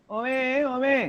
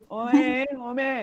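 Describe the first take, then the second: Both takes have the same delivery.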